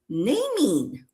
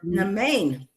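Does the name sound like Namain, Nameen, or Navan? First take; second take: Nameen; Namain. First: The name has an m sound and ends in 'een'. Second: The name has an m sound and ends in 'ain'. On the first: "I've been thinking her name is"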